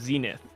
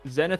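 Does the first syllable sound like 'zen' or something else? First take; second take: something else; zen. First: The first syllable does not sound like zen. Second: The first syllable sounds like the word zen. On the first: It is the usual pronunciation of the word. "like how the word should be pronounced" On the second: The name suggests someone calm and relaxed. "you intentionally pronounce it Zenith"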